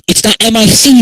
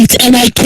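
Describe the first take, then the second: First: Loud, high, spelling out "M I C" as the wrong spelling. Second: Loud, high, spelling out "M I K" as the right spelling. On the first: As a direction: shout "M I C" letter by letter as the spelling to reject. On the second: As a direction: shout "M I K" letter by letter as the spelling to insist on. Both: Shown as a demonstration.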